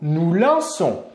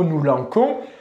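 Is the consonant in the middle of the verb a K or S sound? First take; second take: S sound; K sound. First: The middle consonant is a soft S sound. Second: The middle consonant is a hard K sound. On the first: The speaker calls it right. "permettre à la lettre C de faire le son S" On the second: The speaker calls it wrong. "Si on oublie la cédille, on doit donc prononcer le mot nous lanquons"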